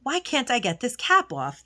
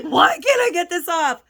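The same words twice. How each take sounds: First: Said in the usual way. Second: Higher, louder retold exasperation, hammed-up; mock frustrated cry of "Why can't I get this off?"; exasperated whine. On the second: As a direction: replay the moment you lost patience with the cap. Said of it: "I'm like".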